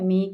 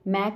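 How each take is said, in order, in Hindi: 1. स्वर ज़्यादा बंद है, 'bed' जैसा। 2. स्वर खुला है, 'cat' जैसा। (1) "मेक है" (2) "मैक नहीं है"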